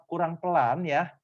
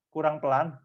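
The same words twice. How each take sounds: First: Ucapkan "kurang pelan ya" perlahan; lebih pelan. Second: Said in the usual way. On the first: Shown as a demonstration. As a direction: sedikit melambat, nada agak naik. (bicara lambat seperti memberi contoh)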